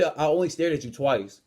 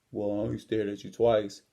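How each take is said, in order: First: Said in the usual way. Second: Low, subdued imitation of the bully; gym bully's meek excuse. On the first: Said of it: "He said". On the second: Gym bully excusing himself for staring, imitated low and subdued. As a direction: mimic a backed-down big guy, pitched low. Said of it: "Only thing he says is".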